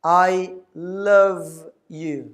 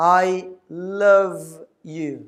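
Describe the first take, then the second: First: The L is a clear English L sound. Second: The same.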